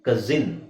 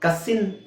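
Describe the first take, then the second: First: The middle consonant is a buzzing z. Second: The middle consonant is a hissing s. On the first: The speaker calls it right. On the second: The speaker calls it wrong.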